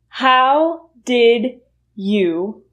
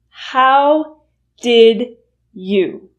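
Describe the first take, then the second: First: Each word is said fully and separately. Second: The same.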